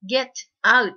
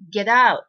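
First: The two words are said separately, unlinked. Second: The t links smoothly into the following vowel. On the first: The speaker calls it wrong. "get out ではなくて" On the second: The speaker calls it right. "というふうにリエゾンしてください"

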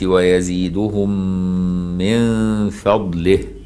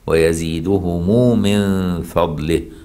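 First: The m ends without an added vowel. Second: The m is followed by an added u vowel.

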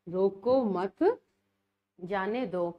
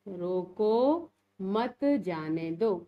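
First: The pause comes right after the second word. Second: The pause comes right after the first word. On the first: Do not stop him; let him go. "इसी चिन्ह को देखो हम अलग जगह लगा के" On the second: Stop him and do not let him go. "ये मैंने इस पर ऐसे चिन्ह लगा दिया, रोको।"

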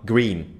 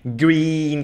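First: The vowel is clipped very short. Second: The vowel is drawn out long. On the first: "Green nó rất là ngắn" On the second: "green kéo dài"

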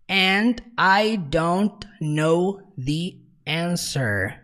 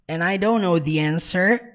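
First: The words are said separately and clearly. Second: The words are run together quickly.

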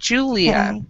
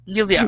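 First: The name is said the English way. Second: The name is said the German way. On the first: "in English, we pronounce it Julia" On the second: "Julia is also pronounced that way in Germany"

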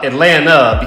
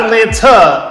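First: The second T is silent. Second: The second T is clearly pronounced. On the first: The speaker calls it right. "because the second T is always silent" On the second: The speaker calls it wrong. "Not Atlanta"

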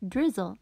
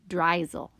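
First: The first vowel is a short 'i' sound. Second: The first vowel is a long 'i' sound. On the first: The speaker calls it right. "but we want it to say drizzle" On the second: The speaker calls it wrong. "It ends in a vowel, so it's open. This would say drizzle"

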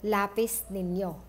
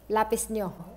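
First: The second word is said in its full form. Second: The second word is shortened to one syllable.

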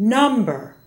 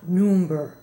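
First: The first vowel is an open 'uh' sound. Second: The first vowel is a rounded 'oo' sound. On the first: The speaker calls it right. "For the short U in English, open the mouth more. Say number" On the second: The speaker calls it wrong. "not number"

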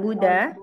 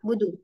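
First: The vowel after the d is drawn out long. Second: The vowel after the d is kept short. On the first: The speaker calls it wrong. "bukan Buddha" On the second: The speaker calls it right. "Jangan dipanjangkan huruf dalnya"

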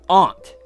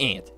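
First: The vowel is broad, not like 'ant'. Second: The vowel is the same as in 'ant'. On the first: The speaker calls it right. "It's aunt. A-U-N-T" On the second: The speaker calls it wrong. "It's not ant. That is not how it's pronounced"

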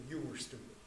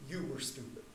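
Both takes have the same delivery.

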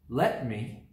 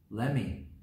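First: Both words are said fully and separately. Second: The words blend into one short word.

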